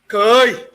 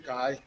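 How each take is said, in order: First: It is said with exasperation, as an annoyed no. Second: It is said calmly, as a plain no.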